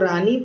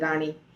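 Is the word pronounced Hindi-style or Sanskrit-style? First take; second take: Hindi-style; Sanskrit-style. First: The word is pronounced the everyday Hindi way. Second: The word is pronounced the Sanskrit recitation way. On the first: "जैसे हम लोग रानी बोलते हैं" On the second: "पर यहाँ मैंने सुन सुना है रानी बोलते हुए"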